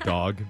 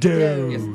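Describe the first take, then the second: First: It is said plainly, like English dog. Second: It is said in a snooty French accent.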